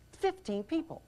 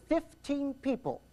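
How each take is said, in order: First: Fifteen people repeated high and soft, rising; incredulous repeat. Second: Fifteen drawn out high and slow; slow emphatic stress. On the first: Speaker to audience, soft rising disbelief. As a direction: echo it back in disbelief. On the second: Speaker to audience, slow stressed shock. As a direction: lean hard on fifteen people. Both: Real, not acted.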